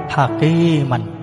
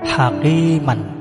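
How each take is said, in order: First: The word ends with a short vowel and n. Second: The same.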